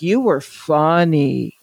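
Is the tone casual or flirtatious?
flirtatious. It sounds suggestive and flirtatious. A woman is signalling romantic or sexual interest. "By a woman, it's like, ... do you hear the difference there?"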